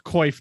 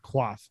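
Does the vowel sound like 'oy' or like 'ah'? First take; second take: oy; ah. First: The vowel sounds like 'oy' in boy. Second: The vowel sounds like 'ah' in father. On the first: The speaker calls it right. "it's called coif" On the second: The speaker calls it wrong. "not quaff"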